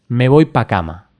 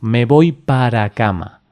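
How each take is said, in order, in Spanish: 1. La preposición se acorta a una sílaba. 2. La preposición se dice completa, en dos sílabas.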